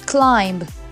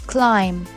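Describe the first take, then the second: First: A b sound is heard at the end. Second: No b sound is heard at the end. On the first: The speaker calls it wrong. "This way you will definitely pronounce climb. No" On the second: The speaker calls it right. "the B is silent and it's climb"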